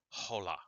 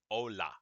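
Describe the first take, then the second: First: The word starts with an audible h sound. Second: The word starts with a vowel, no h sound. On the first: The speaker calls it wrong. "It is not hola" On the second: The speaker calls it right. "This word is hola"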